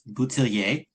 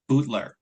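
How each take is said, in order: First: The surname is pronounced in a French way. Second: The surname is pronounced in an English way. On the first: This is the version used with French speakers. "if you ask my uncle who moved to Quebec, it is Boutillier" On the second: This is the family's anglicized version. "if you ask my mother, it's Bootler"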